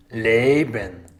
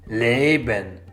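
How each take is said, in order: Both takes have the same delivery.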